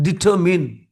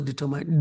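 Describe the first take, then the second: First: Determine ending in "min", said loud; corrected determine. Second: Determine with its last syllable like "mine"; mispronounced determine. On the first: Teacher modelling for students to repeat, loud determine ending in "min". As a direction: say determine firmly as "ditter-min". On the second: Teacher showing what to avoid, determine ending in "mine". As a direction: say determine wrongly as "ditter-mine". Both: Shown as a demonstration. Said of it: "it's not pronounced as determine".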